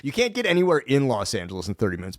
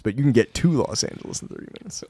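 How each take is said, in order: First: Quick line leaning on "in"; "in" picked out against the rest; stress on IN. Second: "to" punched for contrast; "to" picked out against the rest; stress on TO. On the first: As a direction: lean on the first "in" to contrast it. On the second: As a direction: lean hard on "to". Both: Real, not acted. Contrasts getting in with getting to.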